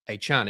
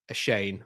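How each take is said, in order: First: The second syllable sounds like 'chan'. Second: The second syllable sounds like 'shane'. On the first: The speaker calls it right. "It is Devon A Chan, isn't it?" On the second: The speaker calls it wrong. "So it's not a Shane, or whatever I was saying"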